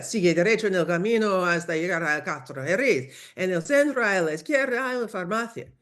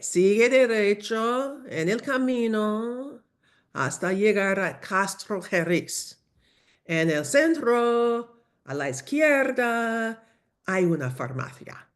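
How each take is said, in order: First: Rattled off in one quick run; hurried local giving directions; rapid directions. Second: Very slow, higher and drawn out; obligingly slow local giving directions. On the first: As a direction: fire off directions too fast to follow. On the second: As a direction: stretch each phrase for a struggling learner. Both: Acted. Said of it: "despacio, por favor".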